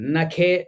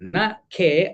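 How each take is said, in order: First: The two words run together as one word. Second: The two words are said separately, with a break. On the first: Death should come through a nail. The speaker calls it wrong. "నఖే మే మృత్యు స్యాత్ అని పలికేడట" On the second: Death should not come in the sky. The speaker calls it right. "న ఖే అనడానికి బదులు"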